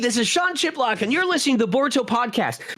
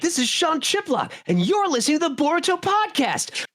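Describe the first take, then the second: First: It is said in a plain, ordinary voice. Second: It is said in an energetic character voice. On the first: "in my head I had practiced it as" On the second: "as I got into the character's personality"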